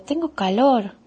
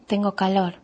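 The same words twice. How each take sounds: First: Put-on higher, drawn-out child's complaint; small child announcing "calor" in protest; said aloud as complaint. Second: Said in the usual way. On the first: A narrator's reading. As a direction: stretch CALOR and let it rise, then fall.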